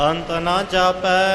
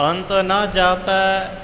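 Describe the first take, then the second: No difference in how they are said.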